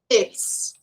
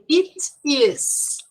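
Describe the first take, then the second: First: The words are squeezed into one short syllable. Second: Both words are said fully and separately.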